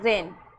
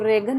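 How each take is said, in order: First: The g is silent before the n. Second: The g is sounded before the n. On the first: The speaker calls it right. "यह रेन" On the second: The speaker calls it wrong. "अब इसको रेगन नहीं पढ़ना"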